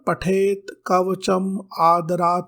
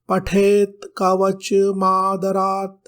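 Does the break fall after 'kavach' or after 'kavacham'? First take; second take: after kavacham; after kavach. First: The break falls after 'kavacham', before 'adarat'. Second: The break falls after 'kavach', joining 'm' to 'adarat'. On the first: The speaker calls it right. "शब्द होता है" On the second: The speaker calls it wrong. "के स्थान पर"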